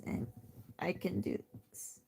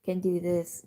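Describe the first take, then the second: First: Much softer, strange-sounding take of the same words; odd demo. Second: Said in the usual way. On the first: Shown as a demonstration. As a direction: show your weird version, barely voiced. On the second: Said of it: "normal people can do this".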